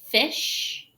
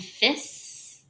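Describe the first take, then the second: First: The word ends with a long 'sh' sound. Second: The word ends with a short 's' sound. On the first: The speaker calls it right. "Make sure that you are saying shh" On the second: The speaker calls it wrong. "don't get that confused with the S S sound at the end"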